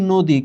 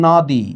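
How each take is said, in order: First: নদী with rounded o, nodi. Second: নদী with open "aw" after the n; spelling pronunciation. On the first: Teacher shows how we read নদী, অ turned to o. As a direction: say নদী with a closed o after n. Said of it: "কিন্তু আমরা পড়ছি". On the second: Teacher shows students what is written, নদী with open অ. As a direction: read নদী as written, nawdi. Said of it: "এখানে লেখা আছে". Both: Shown as a demonstration.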